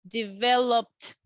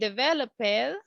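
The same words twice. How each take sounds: First: The word ends with a voiceless t sound. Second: The word ends with a voiced d sound. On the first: The speaker calls it right. "we will say developed" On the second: The speaker calls it wrong. "instead of saying developed"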